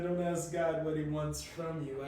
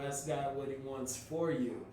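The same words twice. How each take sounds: First: "from" set against what follows; stress on FROM. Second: "for" weighted as the correction; stress on FOR. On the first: Friend correcting his question to God, stress on "from". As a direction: lean on "from" as the thing to reject. Contrasts from you with for you. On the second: Friend telling him what to ask God, stress on "for". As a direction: land firmly on "for" as the right word. Contrasts for you with from you. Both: Retold or imitated.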